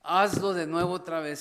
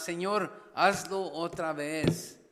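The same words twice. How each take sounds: First: Hazlo punched louder, urgent plea; louder pleading prayer. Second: A slow, drawn-out plea, hazlo held long; slow pleading prayer. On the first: Preacher voicing a church's prayer, louder and urgent. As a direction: press the plea harder on Hazlo. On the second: Preacher voicing a church's prayer, slow and pleading. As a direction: stretch hazlo out slowly, begging God. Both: Acted.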